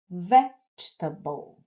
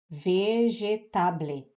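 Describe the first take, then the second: First: English sounds, syllables linked smoothly with a strong stress. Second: Portuguese sounds, each syllable separate and spelled out. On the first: The speaker calls it right. "esta palavra em inglês é pronunciada vegetable" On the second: The speaker calls it wrong. "Se você não conhece do inglês, você vai pronunciar vegetable"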